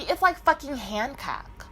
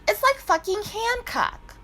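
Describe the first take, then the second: First: Said in the usual way. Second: Excited repeat. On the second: Real, not acted. Repeats line emphatically.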